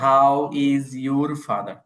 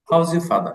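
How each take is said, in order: First: Each word is said fully and separately. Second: The words are run together quickly and contracted. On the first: This is how learners usually say it. "আপনি আপনি বলতেন" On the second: This is how native speakers say it. "ওরা বলছে"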